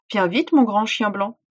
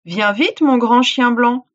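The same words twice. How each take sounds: First: Said in the usual way. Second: Loud yell; djinn yelling. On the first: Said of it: "répéta le djinn". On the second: Acted. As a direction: shout it out. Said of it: "hurla le djinn".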